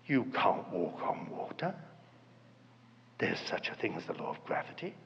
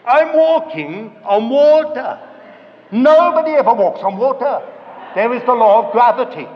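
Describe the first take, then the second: First: Very soft, low murmur; quiet doubt. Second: Loud, acted incredulity; alarmed realisation. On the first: Acted. Inner voice answering when we want evidence, hushed doubting. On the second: Peter realising he is on the water, loud alarm. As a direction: proclaim the sudden doubt at full volume. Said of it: "he suddenly thought to himself".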